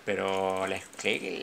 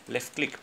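First: "pero left click" stretched out slow and much lower; lower, slow, fed-up insistence; drawn-out exasperated insistence. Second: Said in the usual way. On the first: Real, not acted. Frustrated repeated clicking.

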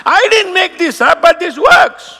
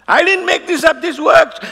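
First: Emphatic shout. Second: Said in the usual way. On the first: Real, not acted. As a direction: shout it with conviction. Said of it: "emphatic claim". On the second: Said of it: "repeated claim".

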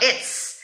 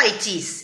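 First: "it's" as one short hissed syllable; contracted it's. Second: Said in the usual way. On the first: Shown as a demonstration. Teacher showing students what Americans say, contracted. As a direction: clip "it is" down to a single "it's". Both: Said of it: "Vai falar it's".

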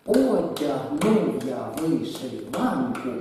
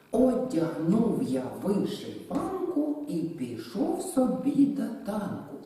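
First: Slow, loud, with «Одягнув» and «вишиванку» hit hard; each strong syllable of «Одягнув я вишиванку» stamped loud and slow; beats accented. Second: Slow verse with clear beats; slow, measured reading of «Одягнув я вишиванку»; rhythmic recitation. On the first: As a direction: chant it in two, strong beat punched. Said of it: "Тут чергуються з наголосом слова і слабі долі". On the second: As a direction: recite it so the strong beats stand out. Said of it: "Нам хочеться порахувати на два". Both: Shown as a demonstration.

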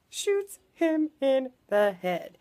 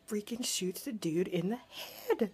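First: "Shoots him in the head" slow, higher, each word separate; emphatic word-by-word. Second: Said in the usual way. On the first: Real, not acted. Repeating the shocking twist to viewers, "Shoots him in the head" emphatic word by word.

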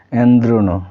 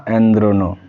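Both takes have the same delivery.

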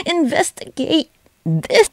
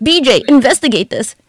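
First: INVESTIGATE stretched slow and high; drawn-out mock command. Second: High, raised call; urgent mock command. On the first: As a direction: draw out "Investigate" at a high pitch. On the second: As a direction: order it like an excited boss. Calls on BJ to investigate.

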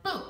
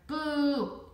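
First: Short, abrupt BOO; sudden boo. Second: Long drawn-out BOO, high and loud; shouted boo. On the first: Shown as a demonstration. Boy startling a classmate in her ear, sudden short boo. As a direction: make BOO one quick burst to startle. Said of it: "it's probably more like". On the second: A narrator's reading. Boy shouting to startle the classmate in front, loud drawn-out boo. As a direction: shout BOO as one stretched, booming scare. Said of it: "leaned over and shouted".

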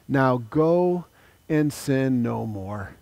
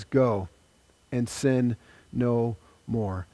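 First: Tender command. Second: Quiet, slow, low repeat of Go and sin no more; quiet solemn command. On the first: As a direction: send her off gently with love. Jesus sends woman away. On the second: Preacher repeats Jesus's words to the woman, quiet and solemn. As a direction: let it land softly and solemnly. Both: Acted.

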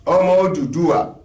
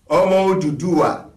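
The two takes are said the same way.

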